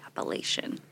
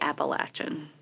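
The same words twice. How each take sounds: First: It is said the northern Appalachian way. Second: It is said the southern Appalachian way. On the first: The speaker is from the northern part of the region. "In the northern part of the Appalachians, they say Appalachian" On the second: The speaker is from the southern part of the region. "if you were south of Pennsylvania, maybe, between Pennsylvania and Virginia, you say Appalachian"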